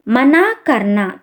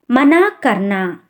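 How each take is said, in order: Both takes have the same delivery.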